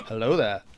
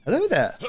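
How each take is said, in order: First: Low, falling British greeting; Obi-Wan Kenobi. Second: High-pitched British greeting; Obi-Wan Kenobi. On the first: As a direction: drop into a lower British-accented hello. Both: Retold or imitated. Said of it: "after watching Star Wars going".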